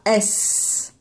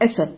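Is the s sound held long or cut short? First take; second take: long; short. First: The s sound is held out long. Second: The s sound is cut off short. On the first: The speaker calls it right. "s'il ne dit pas S" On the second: The speaker calls it wrong. "s'il la fait trop court, il va dire S"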